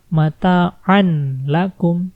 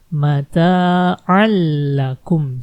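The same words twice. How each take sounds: First: A clear n sound is heard before the l. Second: The n sound merges into a doubled l. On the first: The speaker calls it wrong. "Jangan dibaca mata'an lakum" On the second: The speaker calls it right. "Jadi nggak dibaca an, tapi mata'an lakum"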